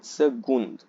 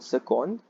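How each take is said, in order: First: The c is pronounced as a g sound. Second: The c is pronounced as a hard k. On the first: The speaker calls it right. "the C gives the G sound" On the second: The speaker calls it wrong. "so not second"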